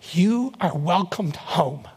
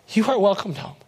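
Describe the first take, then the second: First: "You" held long, each word spaced; slow, weighty welcome. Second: Said in the usual way. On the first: Retold or imitated. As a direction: deliver it slowly, giving each word room. Mother's words retold, first take.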